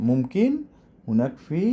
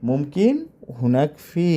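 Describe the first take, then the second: Both takes have the same delivery.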